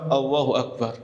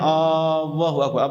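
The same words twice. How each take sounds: First: The first vowel is said short. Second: The first vowel is drawn out long. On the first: The speaker calls it right. "Harus dengan lafaz Allahu Akbar" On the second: The speaker calls it wrong. "Itu kalau dipanjangkan"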